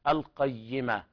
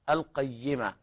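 No difference in how they are said.

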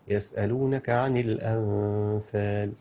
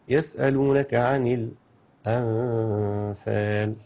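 First: It is read with no brief stops at all. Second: There is a brief stop only in the last word. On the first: "اقراها بدون سكت خالص" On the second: "السكت على اللام"

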